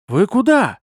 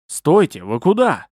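First: High, loud helpless question; despairing, high-pitched protest; doomed. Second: Louder agitated challenge; flustered, urgent question. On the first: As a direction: call out with hopeless dismay. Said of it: "обречённый голос Луциса". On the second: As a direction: call after intruders in alarm. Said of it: "Это взволнованный голос Луциса". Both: A narrator's reading.

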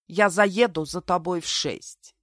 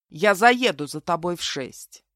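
First: Slow, mildly mocking echo; mocking mimicry. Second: Slow, firm, even statement; unperturbed. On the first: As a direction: parrot his self-important tone slowly. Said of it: "передразнила я его вслух". (передразнивая, медленно) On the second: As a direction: state it coolly, taking your time. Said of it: "невозмутимо добавил". (невозмутимо, размеренно) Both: A narrator's reading.

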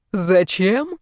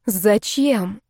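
First: Annoyed echo of the question; irritated echo. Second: Said in the usual way. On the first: A narrator's reading. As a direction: throw her question back, annoyed. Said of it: "раздражённо переспросил мужчина".

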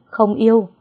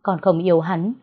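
First: Higher, louder outburst on yêu; loud denial. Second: Said in the usual way. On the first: A narrator's reading. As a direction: shout không yêu in protest. Daughter repeats denial.

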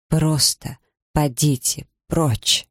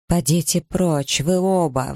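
First: Slow, drained and breaking plea; suddenly weak, cracked voice. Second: Higher, slow, furious order to leave; exclaiming. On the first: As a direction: her strength gives out, voice cracking. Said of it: "внезапно ослабевшим, надтреснутым голосом". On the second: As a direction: drive them both out, pitch raised. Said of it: "воскликнула Элиза". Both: A narrator's reading.

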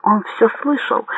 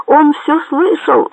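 First: Restrained first alarmed cry; alarmed yell. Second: Slow, high-pitched narrated yell; alarmed yell. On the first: Bandit realizing the major heard, restrained higher exclamation. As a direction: exclaim it higher, holding the volume back. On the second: Bandit warning the sailor, high drawn-out yell. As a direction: cry it out high, stretching the words. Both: A narrator's reading. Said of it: "заорал лось".

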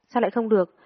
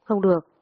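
First: Higher, indignant question; angry challenge. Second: Louder, abrupt plea of refusal; startled, tearful refusal. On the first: Friend demanding why she won't report it, angry challenge. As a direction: challenge the refusal, annoyed. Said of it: "Chị tức giận kéo mạnh tôi". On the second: Crying girl refusing to go to the police, startled protest. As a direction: refuse in sudden alarm. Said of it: "giật mình khóc lóc lắc đầu". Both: A narrator's reading.

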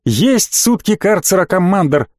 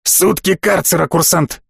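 First: Cheerfully barked. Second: Said in the usual way. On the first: A narrator's reading. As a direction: accept the punishment brightly, drawing it out a little. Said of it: "жизнерадостно гаркнул Рик". (жизнерадостный, слегка гаркающий ответ) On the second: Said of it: "произнёс генерал".

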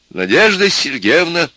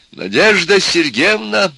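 First: Slow, loud, high dictation; dictating. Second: High, drawn-out entreaty; imploring. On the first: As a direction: call it out for someone writing. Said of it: "стал диктовать профессор". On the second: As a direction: beseech her with a loud, slow plea. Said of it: "опять взмолился профессор". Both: A narrator's reading.

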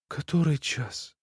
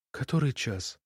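First: Softer, slow plaintive repeat; weakly complaining, drawn out. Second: Put-on softer, weak sick child asking; barely audible plaintive question; plaintive whisper. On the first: Acted. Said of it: "так же, точно жалуясь". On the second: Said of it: "тихим, жалобным голосом".

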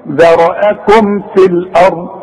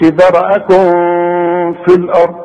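First: ذرأكم في said slowly with the m clear; careful correct reading; correct izhar. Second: ذرأكم with the m blurred into في; faulty hidden m; wrong reading. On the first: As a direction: hold the m of ذرأكم before في. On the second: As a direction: let the m of ذرأكم fade. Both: Shown as a demonstration. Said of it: "ما تقولش".

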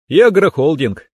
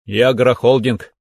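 First: Higher, louder confirmation through a smile; smiling echo. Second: Said in the usual way. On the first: A narrator's reading. Son-in-law confirming his farm holding to father-in-law, smiling. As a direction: repeat it back with a smile. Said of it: "улыбнулся я". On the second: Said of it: "кивнул Александр Иванович".

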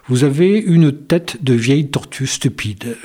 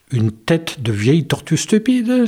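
First: Said in the usual way. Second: A touch higher, alarmed echo of the insult; mild frightened repeat. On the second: A narrator's reading. Wolf echoing the dentist, mildly frightened. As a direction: repeat it in dismay, lightly. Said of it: "s'effraya le loup".

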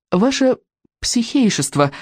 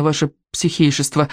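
First: Polite. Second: Panting. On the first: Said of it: "вежливо произнёс он". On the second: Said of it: "пропыхтел мальчик". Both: A narrator's reading.

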